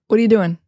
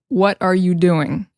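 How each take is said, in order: First: The words are reduced and run together. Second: Each word is pronounced fully and separately. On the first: The speaker calls it right. "a lot of times we're just going to be like, ... So what are becomes whata" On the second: The speaker calls it wrong. "We almost never say"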